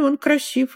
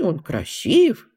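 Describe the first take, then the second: First: It is said as a plain, matter-of-fact statement. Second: It is said as a surprised exclamation. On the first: It is simply a fact. "Она может быть утвердительной" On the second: The listener seems surprised by it. "Она может быть восклицательной"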